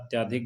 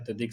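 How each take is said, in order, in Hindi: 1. 'ty' के बाद का स्वर लंबा 'aa' है। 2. 'ty' के बाद का स्वर छोटा 'a' है। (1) "गलत है" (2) "सही है"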